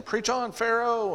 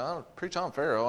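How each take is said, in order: First: High, drawn-out heckling cry; visitor's call-out. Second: Soft, mildly baffled echo; puzzled repeat. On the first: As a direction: imitate a back-row amen shouter, pitched way up. Visitor keeps calling to preacher. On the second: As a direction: repeat it to yourself, not getting it. Preacher puzzles over the call. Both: Retold or imitated.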